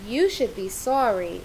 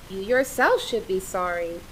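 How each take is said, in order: First: Said in the usual way. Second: Yourself leaned on, the other words light; stress on yourself. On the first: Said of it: "In the second sentence". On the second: Shown as a demonstration. Teacher showing the class how yourself adds emphasis. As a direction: press the word yourself to point at you. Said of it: "the pronoun yourself laid emphasis on".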